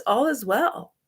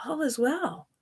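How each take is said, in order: First: Said in the usual way. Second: Whispered all is well, softly reassuring; soothing whisper. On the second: Retold or imitated. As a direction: breathe the words out as a calm whisper. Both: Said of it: "Abraham Hicks always says".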